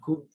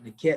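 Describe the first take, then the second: First: The word is said with u vowels. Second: The word is said with e vowels. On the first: "some people might say nukut" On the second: "E is mostly closer to it"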